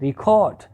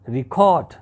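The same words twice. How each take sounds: First: The stress is on the second syllable. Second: The same.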